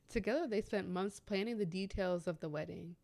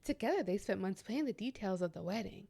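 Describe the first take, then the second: First: It is read in the speaker's natural voice. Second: It is read in a put-on character voice.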